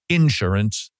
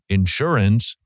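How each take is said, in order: First: It is said with a Southern US pronunciation. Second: It is said with a standard US pronunciation. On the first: "That's how you say it in the South" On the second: "as opposed to the right way of insurance"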